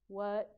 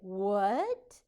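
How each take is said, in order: First: The pitch stays level or falls at the end. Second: The pitch rises at the end. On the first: The speaker calls it wrong. "I don't say" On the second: The speaker calls it right. "My voice was up"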